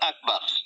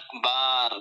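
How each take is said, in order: First: The final vowel is said short. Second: The final vowel is drawn out long. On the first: It means the greatest. The speaker calls it right. "সবচেয়ে বড় তো আকবার" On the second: It means drums or musical instruments. The speaker calls it wrong. "যদি টান দিয়ে বলি"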